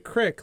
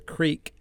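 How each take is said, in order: First: The word has a short 'i' vowel. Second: The word has a long 'ee' vowel. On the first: "still say crick" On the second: "it's creak. You do not say crick"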